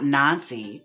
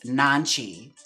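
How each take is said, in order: First: The middle consonant is an 's' sound. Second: The middle consonant is a 'ch' sound. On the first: The speaker calls it wrong. "his name is not Nancy" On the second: The speaker calls it right. "it's Nanchi"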